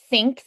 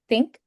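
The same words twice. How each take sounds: First: It starts with a soft th sound. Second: It starts with a dentalized t sound. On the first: "like think" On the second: "they might do think, where where it's um that dentalized T sound"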